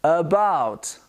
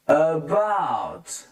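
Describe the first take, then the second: First: "About" as "uh-BOUT"; careful "About" with neutral first vowel; weak "uh" opening on "About"; schwa demo. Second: "about" stretched as "uhhh-bouuut"; drawn-out teaching model of "about"; exaggerated schwa. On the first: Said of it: "The A becomes a schwa". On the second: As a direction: linger on the opening "uh" of "about". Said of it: "I'm trying to exaggerate". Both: Shown as a demonstration.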